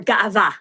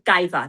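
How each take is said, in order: First: The word is said the Israeli way. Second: The word is said the non-Israeli way. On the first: "If you were an Israeli, maybe you would say ga'ava" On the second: "That's the way we say this word"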